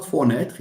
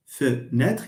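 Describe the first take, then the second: First: Fenêtre with a full O first syllable, for-NÊTRE; wrong full vowel. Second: Fenêtre with a weak schwa, fe-NÊTRE; French schwa. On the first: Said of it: "it's not". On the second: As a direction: say Fenêtre with a short uh in the first syllable. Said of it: "it's a شفا". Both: Shown as a demonstration.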